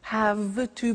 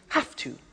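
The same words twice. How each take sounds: First: The word 'have' ends with a V sound. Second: The word 'have' ends with an F sound.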